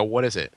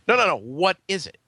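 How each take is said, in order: First: Said in the usual way. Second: Higher, emphatic "what is it"; insistent retold question. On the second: Guest pushing a waitress to name the hors d'oeuvre, insistent. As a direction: press firmly on "what is it", pitched up.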